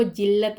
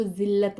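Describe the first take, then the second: First: जिल्लत as "jillat"; hard j opening जिल्लत; j sound. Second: जिल्लत as "zillat"; buzzed z opening जिल्लत; z sound. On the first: Teacher shows how not to read it, जिल्लत with j. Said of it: "इसको जिल्लत नहीं पढ़ेंगे". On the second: Teacher shows how to read it, जिल्लत with z. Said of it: "इसको जिल्लत पढ़ेंगे". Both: Shown as a demonstration.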